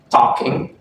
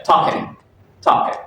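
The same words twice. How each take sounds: First: Said in the usual way. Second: "talking" ending in a plain N, as "talkin'"; tentative try at "talking" with the final G dropped; Cockney G dropping. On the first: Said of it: "And in from talking". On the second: Shown as a demonstration. Student unsure of Cockney, trying "talking" as "talkin'". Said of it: "Cockney dialect to a T".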